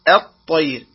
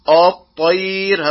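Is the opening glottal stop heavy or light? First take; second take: light; heavy. First: The opening glottal stop sounds light and thin. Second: The opening glottal stop sounds heavy and thick. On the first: The speaker calls it right. "والصواب أن يقول الطير" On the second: The speaker calls it wrong. "لا يقول الطير، هذا خطأ"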